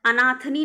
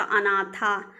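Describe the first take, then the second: First: अनाथनी ending in -nee; wrong feminine अनाथनी. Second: अनाथा ending in long thaa; correct feminine अनाथा. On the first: Teacher rejects a gender form, -nee on अनाथनी. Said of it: "नहीं होता". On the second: Teacher corrects the gender form, अनाथा ending in thaa. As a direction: say अनाथा with no nee. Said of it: "अनाथनी नहीं होता". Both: Shown as a demonstration.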